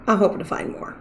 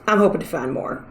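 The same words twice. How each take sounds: First: Soft breathy whisper. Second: Said in the usual way. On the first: Shown as a demonstration. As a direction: whisper it to yourself. Repeated as a whisper.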